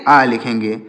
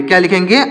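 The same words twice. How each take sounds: First: आ लिखेंगे answered lower with a falling tune; answer given. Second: Rising teacher's question on क्या लिखेंगे; quiz question. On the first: Teacher answering own quiz for students, low falling answer. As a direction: drop low and settle the answer on आ. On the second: Teacher quizzing students, rising question. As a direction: ask क्या लिखेंगे with a rising tune, prompting the class. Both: Shown as a demonstration.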